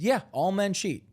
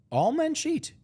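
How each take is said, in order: First: High, falling matter-of-fact assertion; insistent. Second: High-pitched, stunned question; incredulous. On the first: Answering a doubter about cheating, insistent. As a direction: confirm it as an obvious fact. He defends his claim to questioner. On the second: Friend questioning his claim about cheating, incredulous. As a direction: echo it back in high disbelief. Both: Retold or imitated.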